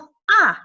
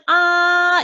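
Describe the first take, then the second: First: The pitch falls sharply from high to low. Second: The pitch stays high and level. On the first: "오에서 일까지 확 내려주는" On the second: "높고 길게"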